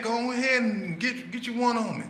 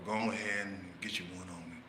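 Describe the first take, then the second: First: Egging on. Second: Much softer, calm coaxing; calm invitation. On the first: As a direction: push him to throw it. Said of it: "talking to him nice and calm". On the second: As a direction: offer it gently. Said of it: "nice and calm". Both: Retold or imitated.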